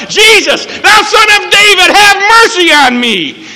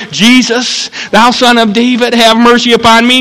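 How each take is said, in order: First: Blind beggar's desperate shout; very high full-voice cry for mercy; loud as possible. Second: Restrained beggar's plea, still in preaching voice; supposedly soft call. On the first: Acted. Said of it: "as loud a voice as he could". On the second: Shown as a demonstration. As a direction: plead without a full shout. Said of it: "didn't call out in a soft voice".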